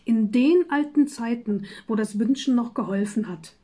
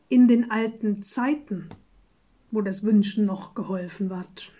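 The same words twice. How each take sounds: First: The stress is on the word alten. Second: The stress is on the word Zeiten.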